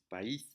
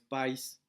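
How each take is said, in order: First: The stress falls on the i, two syllables. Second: The stress falls on the a, one syllable. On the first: The speaker calls it right. "la carga está en la I" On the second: The speaker calls it wrong. "no es país"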